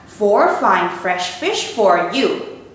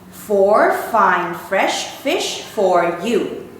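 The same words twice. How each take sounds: First: It is said fast. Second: It is said at medium speed.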